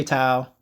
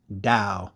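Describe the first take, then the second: First: "Tao" with a hard T sound; "Tao" like the start of "towel"; wrong T pronunciation. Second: "dao" with a D, slow and lower; low, drawn-out "dao" starting on D; correct D pronunciation. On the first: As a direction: say "Tao" starting on T rather than D. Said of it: "don't say Tao". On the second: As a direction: say "dao" like "dow", softly and deliberately. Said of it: "it's pronounced dao". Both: Shown as a demonstration.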